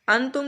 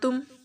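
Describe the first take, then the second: First: The n sound is said fully and clearly. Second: The n is only partly voiced, nearly hidden. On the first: The speaker calls it wrong. "इसको अंतुम नहीं पढ़ना" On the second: The speaker calls it right. "पूरी तरह से नून की आवाज़ को अदा नहीं करना"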